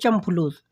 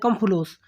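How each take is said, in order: First: The first word begins with a ch sound. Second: The first word begins with a k sound. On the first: This is how it is said in Kuwait or Bahrain. "वहाँ बोलते हैं" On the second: This is how it is said in Saudi Arabia. "यहाँ बोलते हैं"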